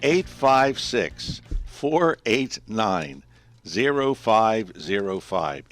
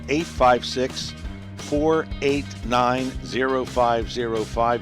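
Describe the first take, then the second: First: The number is read slowly. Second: The number is read quickly.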